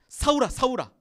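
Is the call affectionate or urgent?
urgent. It is said in an urgent, pressing way.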